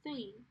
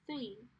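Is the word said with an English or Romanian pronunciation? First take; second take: Romanian; Romanian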